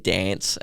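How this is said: It is said with a general Australian accent.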